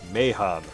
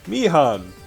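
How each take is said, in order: First: The first syllable sounds like 'may'. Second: The first syllable sounds like 'me'. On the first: The speaker calls it right. "It's literally Meihan" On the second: The speaker calls it wrong. "Everybody pronounces Meihan Mihan"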